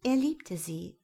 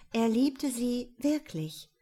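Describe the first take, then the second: First: Said in the usual way. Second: "liebte" slow, higher and emphatic; stress on liebte. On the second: A narrator's reading. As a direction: lean into "liebte", slowly. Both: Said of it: "ja tatsächlich".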